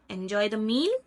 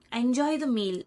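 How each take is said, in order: First: "meal" goes up, making it a question; rising intonation. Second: "meal" falls, making it a statement; falling intonation. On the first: Teacher asking if you enjoyed the meal, rising intonation on "meal". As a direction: lift the pitch on "meal" as if asking. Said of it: "apply the rising intonation at the end". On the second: Teacher showing a phrase as a statement, falling intonation on "meal". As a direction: let the pitch drop on "meal". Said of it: "If you apply falling intonation". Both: Shown as a demonstration.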